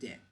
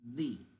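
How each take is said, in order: First: The vowel is short, not a long ee. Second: The vowel is a long ee sound. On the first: The next word starts with a consonant sound. "you say de" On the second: The next word starts with a vowel sound. "We say the, like for example, like this, the, or double E"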